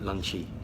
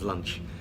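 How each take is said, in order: First: The word has an extra vowel, two syllables. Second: The word has no extra vowel, one syllable. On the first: The speaker calls it wrong. "maybe you add too many syllables" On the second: The speaker calls it right. "instead of lunch"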